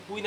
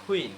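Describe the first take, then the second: First: কুইন with a plain, unaspirated K. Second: কুইন with a puff on K, "khween"; aspirated K. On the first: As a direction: say কুইন with no puff on K. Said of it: "কুইন এখন আর বলা যাবে না". (কুইন, সাধারণ ক দিয়ে) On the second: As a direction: say কুইন as "khuin". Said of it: "কি বলতে হবে?". (কুইন, খ দিয়ে খুইন) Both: Shown as a demonstration.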